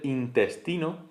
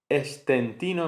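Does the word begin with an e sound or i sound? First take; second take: i; e. First: The word begins with an i sound. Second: The word begins with an e sound. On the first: The speaker calls it right. "en vez de" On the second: The speaker calls it wrong. "la primera I se ve acercada, se acerca a la E"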